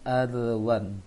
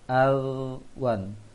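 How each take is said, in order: First: The consonant is released with a bouncing echo. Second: The consonant is held steady without a bounce. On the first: The speaker calls it wrong. "jangan al-wan" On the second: The speaker calls it right. "ditahan lisannya, jangan digigit lisannya"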